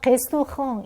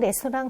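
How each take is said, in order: First: It is said with French pronunciation. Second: It is said with Korean loanword pronunciation. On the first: "프랑스어 발음은 레스토랑 이런 식으로 발음을 해요" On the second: "레스토랑 그러잖아요"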